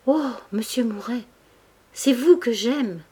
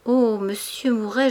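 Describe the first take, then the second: First: Slow, higher, stammering sob; sobbing confession. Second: Pained pleading. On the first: Denise confesses love to Mouret, sobbing. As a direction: break down as you confess your love. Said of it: "sanglota elle aussi en bégayant". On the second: Denise begs Mouret to stop, pained plea. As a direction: plead as if struck by grief. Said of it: "sous le coup d'une grande douleur". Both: A narrator's reading.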